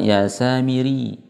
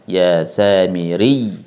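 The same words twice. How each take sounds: First: The last syllable is said flat and unstressed. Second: The last syllable is stressed with raised pitch. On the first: The speaker calls it wrong. "Kalau dibaca biasa" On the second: The speaker calls it right. "Ditekan dari roknya ya"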